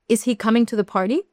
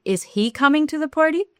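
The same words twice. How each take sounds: First: "he" lifted and stressed, the rest light. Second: "party" stressed on a high rising pitch. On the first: English teacher showing stress placement, "he" stressed. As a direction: lean on the word "he" with a rising question. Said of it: "no es lo mismo decir". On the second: English teacher contrasting stress, high rise on "party". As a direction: push the question up onto "party". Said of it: "Que decir". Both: Shown as a demonstration.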